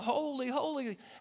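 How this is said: It is said in an amazed, awed way.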